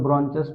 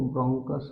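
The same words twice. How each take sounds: First: ब्रोंचस said with a ch sound, bron-chus; bronchus with ch. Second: ब्रोंकस said with a hard k sound, bron-kus; bronchus with k. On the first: Teacher to students, the variant some people use: ब्रोंचस with ch. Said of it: "कुछ लोग ब्रोंचस भी कहते हैं". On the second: Teacher to students, the singular form: ब्रोंकस with a hard k. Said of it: "singular अगर आपको बोलना है तो ब्रोंकस". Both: Shown as a demonstration.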